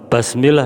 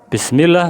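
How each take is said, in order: First: The vowel after b is an a sound. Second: Both vowels before ll are i sounds. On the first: A vowel mark has been changed. The speaker calls it wrong. "merubah harokat" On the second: The vowel marks are read as written. The speaker calls it right. "yang seharusnya Bismillah"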